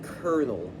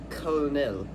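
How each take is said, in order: First: It is said with the English pronunciation. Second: It is said with a French-like pronunciation. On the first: "it gets simplified to the sound colonel" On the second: "this is the exact spelling in French, and it's colonel or something like that"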